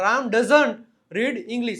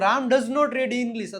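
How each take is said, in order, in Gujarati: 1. 'does not' શબ્દો 'doesn't' માં સંકોચાય છે. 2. 'does not' શબ્દો પૂરા બોલાય છે. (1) "ડઝ નોટ નું short form ડઝન્ટ" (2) "ડઝ નોટ"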